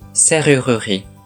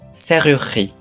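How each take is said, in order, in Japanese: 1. 真ん中の u ははっきり発音します。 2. 真ん中の u は落とします。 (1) "うを読めば" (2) "真ん中のうを落とせば"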